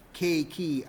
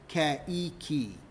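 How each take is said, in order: First: "K key" run as KAY-kee; "K key" with the first vowels merged; two syllables. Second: "K E key" split as keh-ee-kee; slow, broken-up "K E key"; three syllables. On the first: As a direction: say "K key" in just two beats. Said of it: "a two-syllable K key". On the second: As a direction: slowly separate every vowel in "K E key". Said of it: "I get K E key". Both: Shown as a demonstration.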